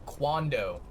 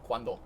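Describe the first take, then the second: First: It is said with an American English accent. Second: It is said with a native Spanish accent. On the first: The speaker calls it wrong. "if an American says it, they're going to be like quando" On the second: The speaker calls it right. "that sort of natural accent where it's like cuando"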